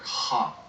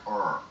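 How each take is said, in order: First: The R sounds like a breathy H. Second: The R is said the English way. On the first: "which in Portuguese uh, sounds like like an H for you, like ha" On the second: "an R in, in, in English is like R"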